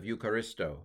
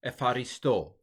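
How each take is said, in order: First: "Eucharisto" as you-ka-RIS-toe; Erasmian pronunciation. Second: "Epharisto" with an F and tapped r; modern Greek pronunciation. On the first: Teacher citing the boring version, Erasmian pronunciation. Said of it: "Erasmian pronunciation". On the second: Teacher showing how modern Greeks say it, F pronunciation. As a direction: say "Epharisto" as ef-ah-ree-STO. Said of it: "tend to pronounce this as, uh, almost F". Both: Shown as a demonstration.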